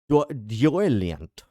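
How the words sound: The word is said in an exaggerated posh accent. "when you do punchably posh"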